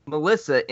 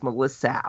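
First: Said in the usual way. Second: "Melissa" with the last vowel drawn into "ow"; mimicked mispronunciation. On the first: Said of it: "and they heard". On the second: Retelling how viewers heard the actress, "Melissa" ending in "-sow". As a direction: end "Melissa" on an exaggerated "-sow". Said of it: "that's exactly how it sounds".

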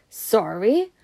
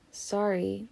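First: Indignant questioning echo, rising; gruff echo. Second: Softer, small apology; quick apology. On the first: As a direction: throw it back as an incredulous question. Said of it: "boofed Hagrid". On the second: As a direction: slip in a quick, quiet sorry. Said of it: "said Harry, quite quick-like". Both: A narrator's reading.

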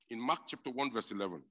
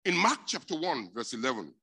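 First: Said in the usual way. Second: High, loud scripture call; loud announcement. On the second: Real, not acted. Preacher announcing the verse to the church, loud.

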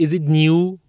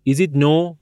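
First: A clear "ee-oo" glide in "new", drawn out. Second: "no" in place of "new", rhyming with "go"; mispronounced "new". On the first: Consultant repeating the question for a puzzled student, "new" said slowly as "nyoo". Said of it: "من با لهجهٔ امریکایی گفتم". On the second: Consultant asking a student in would-be American accent, "new" mispronounced as "no". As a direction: say "no" for "new", with an oh vowel. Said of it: "نو به معنای جدید رو میگفت نو". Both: Retold or imitated.

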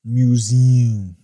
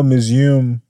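First: "Museum" said in full as "mew-ZEE-um"; careful pronunciation. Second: "museum" slurred into two syllables, like "MEW-zum"; slurred pronunciation. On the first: Shown as a demonstration. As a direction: carefully give "Museum" all three syllables. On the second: Real, not acted. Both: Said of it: "That's a hard word for me".

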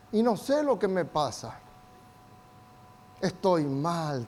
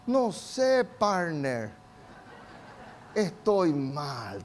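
First: Soft, slow, dejected sigh of a line; mock dejected woman. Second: Soft, slow, slumped half-laugh; mock down-and-out bro. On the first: Preacher voicing an afflicted woman to the church, soft and slow. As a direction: imitate a downcast woman who can't say what's wrong. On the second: Preacher voicing a gloomy young man to his friend, soft and slow. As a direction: play a guy who just feels bad and laughs it off.

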